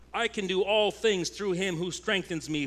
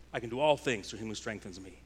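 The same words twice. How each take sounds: First: I can do ALL things, raised and ringing with conviction; earnest proclamation. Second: Quick, low throwaway version of the verse; mock self-centered boast. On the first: Acted. Pastor claims the verse rightly for the church, raised and sure. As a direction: declare it as a true promise, leaning on "all". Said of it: "but we have this promise". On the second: Pastor mimics a believer misusing the verse, quick and offhand. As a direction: rattle it off like a slogan for your own kingdom. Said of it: "When we decide, "I decide the mountain".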